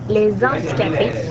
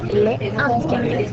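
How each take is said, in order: First: A z sound links les to the noun. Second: No z sound links les to the noun. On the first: The speaker calls it wrong. "n'est pas une prononciation adéquate" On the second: The speaker calls it right. "sans faire de liaison entre le déterminant et le nom"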